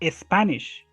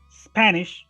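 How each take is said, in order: First: The word starts with an added vowel before s. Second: The word starts directly with an s sound. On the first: The speaker calls it wrong. "we say Spanish because we need a vowel at the very beginning" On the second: The speaker calls it right. "instead of Spanish"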